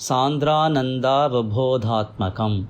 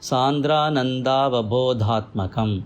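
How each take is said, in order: The two takes are said the same way.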